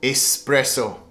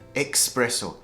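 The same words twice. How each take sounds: First: The word starts with an 'es' sound. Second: The word starts with an 'ex' sound. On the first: The speaker calls it right. "But it should be pronounced espresso" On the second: The speaker calls it wrong. "Express, meaning they get a shot of coffee"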